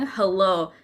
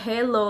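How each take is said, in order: First: It is said with a native English accent. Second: It is said with an Indonesian accent. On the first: This is how native English speakers say it. "biasanya orang yang pakai bahasa Inggris bilang hello" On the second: This is how Indonesian speakers tend to say it. "orang Indonesia bakal cenderung bilangnya hello"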